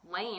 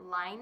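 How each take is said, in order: First: The vowel sounds like 'ay', as in lane. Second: The vowel sounds like 'eye', as in line. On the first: It is read as an English word would be. "I'm just sounding it out like I would in English" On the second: Another podcaster said it this way. "another podcaster pronounce it Line"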